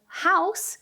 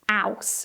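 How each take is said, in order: First: The word begins with a clear H sound. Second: The word begins without any H sound.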